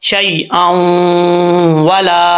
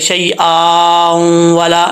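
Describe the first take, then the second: First: No long a vowel comes before the nasal. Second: A long a vowel is sounded before the nasal. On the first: The speaker calls it right. "अलिफ गिर जाएगा" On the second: The speaker calls it wrong. "ऐसा नहीं है कि जब गुन्ना करेंगे तो अलिफ भी पढ़ा जाएगा ... ये गलत है"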